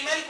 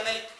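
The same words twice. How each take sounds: First: مالك with a long first aa, "maalik"; long vowel in مالك. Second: مالك with a short first a, "malik"; short vowel in مالك. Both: Shown as a demonstration. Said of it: "هي بتتقري مالك ولا مالك".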